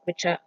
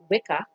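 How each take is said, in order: First: The middle consonant is a ch sound. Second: The middle consonant is a hard k sound. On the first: This is how it was said in Saxon times. "C C was pronounced like ch" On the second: This is how people say it today. "that people call now"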